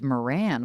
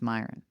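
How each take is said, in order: First: The name is said like Moran. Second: The name is said like Myron. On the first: The speaker calls it wrong. "I thought it was Moran, which is what I would have thought" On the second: The speaker calls it right. "someone said, no, no, no, it's Myron"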